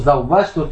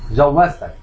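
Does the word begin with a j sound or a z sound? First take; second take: z; j. First: The word begins with a z sound. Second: The word begins with a j sound. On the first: This is the standard Arabic form. The speaker calls it right. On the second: This is the colloquial, incorrect form. The speaker calls it wrong.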